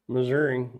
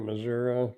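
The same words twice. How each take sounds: First: The name is said the everyday modern way. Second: The name is said the old-fashioned way. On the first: This is how the speaker's family always said it. "is the way we always pronounced it" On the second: This is how old people and old westerns say it. "old people and, and old westerns and stuff, and they say"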